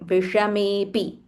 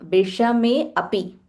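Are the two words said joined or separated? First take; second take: joined; separated. First: The two words run together as one. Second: The two words are said separately. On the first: This is the form used when reciting. "when we are chanting, you can ignore this S sign and you can say Vishamepi" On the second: The words are split up to understand the meaning. "when we do a Padacheda, Padacheda is we are breaking down into individual words"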